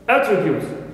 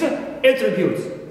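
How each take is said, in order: First: The stress is on the first syllable. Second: The stress is on the second syllable. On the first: It is a noun. "in the first word, which is a noun, the first syllable is" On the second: It is a verb. "I shift my stress uh, from first syllable to the uh, second one"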